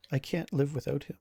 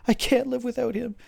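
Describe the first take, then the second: First: Subdued, despairing plea; crumpled in sorrow. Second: High, loud desperate wail; distraught screaming. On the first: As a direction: say it small and broken-hearted, without shouting. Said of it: "crumples into just a ball of sorrow". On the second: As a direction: cry it out, loud and frantic. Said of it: "she starts screaming". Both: Acted.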